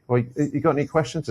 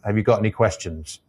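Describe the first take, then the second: First: Pitched higher, questions lifting up at the end; unsure upward inflection on questions; rising at the end. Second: Questions said as a falling statement; flat statement ending with a fall on questions. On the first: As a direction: let the tune climb on questions. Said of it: "if you inflect up at the end of anything you say". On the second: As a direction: drop the tune down on questions. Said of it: "if you come down at the end of the sent". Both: Shown as a demonstration.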